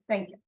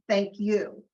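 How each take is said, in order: First: It is said casually, without real feeling. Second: It is said warmly, with deep feeling.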